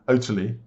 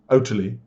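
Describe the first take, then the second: First: The T sound is clearly pronounced. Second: The same.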